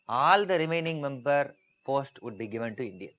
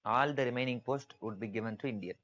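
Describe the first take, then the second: First: All punched louder, whole line raised; emphatic stress on all. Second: Said in the usual way. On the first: Shown as a demonstration. Teacher to class, stressing all is given. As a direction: hammer the word all home. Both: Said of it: "you have to put emphasis on that".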